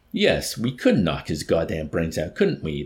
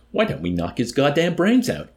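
First: Slow, drawn-out agreeing; considering agreement. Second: Loud, high-pitched eager suggestion; robust enthusiasm. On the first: Major agreeing with the colonel, slow consideration. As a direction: mull it over and agree slowly. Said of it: "the hawk-faced major agreed". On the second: Colonel to the others, robust enthusiasm. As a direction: burst out with a rousing idea. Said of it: "he suggested with robust enthusiasm". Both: A narrator's reading.

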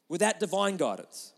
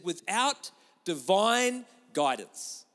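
First: Said in the usual way. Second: Slow, weighty stress on "divine"; slow emphatic reading. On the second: Shown as a demonstration. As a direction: lean hard on "divine" and stretch "Without divine guidance".

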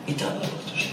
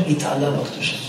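First: התעלה בקדושה whispered, hushed and soft. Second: Said in the usual way. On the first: Shown as a demonstration. Rabbi to his listeners, repeating התעלה בקדושה in an awed whisper.

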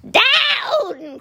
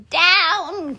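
First: Very high, stretched-out cry; witch's cry. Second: High, drawn-out call; witch's cry. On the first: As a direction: wail the order as the witch. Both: A narrator's reading. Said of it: "cried the witch".

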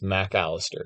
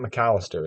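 First: "Mac Allister" split into two separate words. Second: "McAllister" run together as a single word; McAllister as one word. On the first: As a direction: give "Mac" its full vowel, then "Allister" separately. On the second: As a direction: say "McAllister" with no break after the Mc. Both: Shown as a demonstration. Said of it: "It's two different words".

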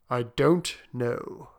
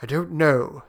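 First: DON'T KNOW drawn out slowly; slow pondering. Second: Said in the usual way. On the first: Acted. Soldier unsure about wishing again, slowly pondering "don't know". Slower, pondering repeat of reply.

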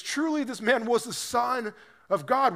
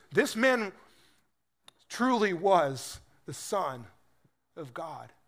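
First: Higher, rising with wonder; a soldier stunned by what he just saw; amazed centurion. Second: Slow, weighty, each word spaced out; solemn confession. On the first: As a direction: blurt it out in astonishment. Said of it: "he looks at this guy and he says". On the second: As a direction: let the confession land slowly. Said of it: "he exclaimed in this great confession of faith". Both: Retold or imitated.

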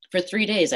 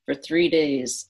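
First: Said in the usual way. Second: For three days drawn out, three stressed; slow down and lean on three. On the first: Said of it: "repeated for emphasis". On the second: Real, not acted. Telling the host how long she stayed angry, slow and stressed. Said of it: "repeated slowly for emphasis".

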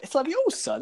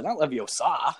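First: Leviosa with high, stressed middle "O". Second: Leviosa with a long "SAH" ending; stress on final SA. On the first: Correcting anyone who ends in "uh", Leviosa stressed high on the O. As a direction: pitch up on the O of Leviosa, short final "sa". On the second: Mimicking the wrong pronunciation, Leviosa with a stressed final SAH. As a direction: land on the last syllable of Leviosa, stretched out. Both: Acted. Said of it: "you just be like".

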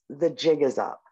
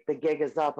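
First: Said in the usual way. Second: "gig" with a hard g in place of the j sound; mispronounced "gig". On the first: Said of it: "the host is like". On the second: Retold or imitated. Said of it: "the one day she was like".

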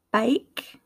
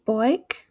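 First: American "bike" with eye vowel; American accent, open glide in "bike". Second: Aussie "boik", vowel turned to oi; attempted Australian "boik" for bike; Australian accent, "boik" with rounded glide. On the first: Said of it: "in my American accent". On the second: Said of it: "my attempts at an Australian accent". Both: Shown as a demonstration.

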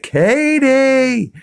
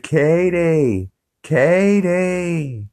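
First: High, loud yelled name Katie; retold yell. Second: Calling out. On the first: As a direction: bellow Katie through the glass at her. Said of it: "and he's like". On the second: Retold or imitated. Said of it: "He's like".

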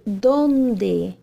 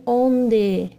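First: "dónde" with a clear Spanish d. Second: "onde" the Portuguese way, the wrong form; plain Portuguese "onde". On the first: Teacher drilling the Spanish "dónde" for students. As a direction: stress the first syllable of "dónde". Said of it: "e não "onde". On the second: Teacher flagging Portuguese "onde" as the mistake. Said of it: "estamos falando espanhol". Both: Shown as a demonstration.

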